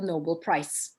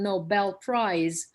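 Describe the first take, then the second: First: The final consonant of prize is voiceless. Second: The final consonant of prize is voiced. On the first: The speaker calls it wrong. "they would say Nobel Prize ... because we devoice" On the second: The speaker calls it right. "instead of saying Nobel Prize"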